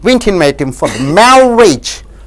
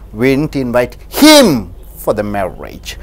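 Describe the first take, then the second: First: The stress falls on the word marriage. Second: The stress falls on the word him. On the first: He was invited to another function, not a marriage. "Suppose if you invite on the marriage" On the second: Someone else was invited instead. "Suppose if you stress on the word him"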